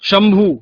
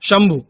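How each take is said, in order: First: The final vowel is long. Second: The final vowel is short. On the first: The speaker calls it wrong. "वहां दीर्घ स्वर का कर देते हैं" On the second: The speaker calls it right. "मानक रूप है"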